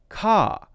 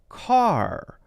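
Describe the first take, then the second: First: The final R is dropped, ending on an open vowel. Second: The final R is strong with the tongue curled back. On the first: "then it's going to be that more open sound" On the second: "If it's at the end of the word, it is also the same"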